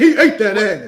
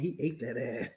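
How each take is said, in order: First: It is said loudly, with strong force. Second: It is said softly, with little force. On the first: The speaker calls it right. "you gotta say that with more force in your voice" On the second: The speaker calls it wrong. "You can't go"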